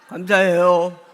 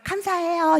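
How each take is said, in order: First: It sounds forced and reluctant. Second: It sounds bright and cheerful.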